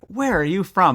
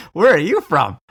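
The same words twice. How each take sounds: First: Lightly voiced boys' casual question; a plain, friendly ask from the kids; boys asking. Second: Louder, higher disbelieving echo; surprised echo. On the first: Teen boys in Rome ask the American where she's from, casually. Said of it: "just like". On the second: Retold or imitated. The American tourist echoes the boys' question back, astonished. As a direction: throw the question back, stunned.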